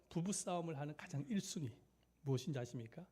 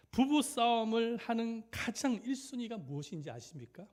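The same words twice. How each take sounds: First: Said in the usual way. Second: High, loud, projected preacher's question; ringing, raised-voice rhetorical question; emphatic loud question. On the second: Real, not acted. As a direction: throw the question out to the whole room. Preacher poses key question, then repeats.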